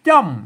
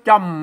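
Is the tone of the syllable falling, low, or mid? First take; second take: falling; low. First: The syllable is said on a falling tone. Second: The syllable is said on a low tone. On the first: "ใส่ไม่โท... อันนี้มันเสียงอันโทปกติ" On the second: "ใส่ไม่เอกอันนี้เปิดอ่านว่าจำไหมเสียงเอก"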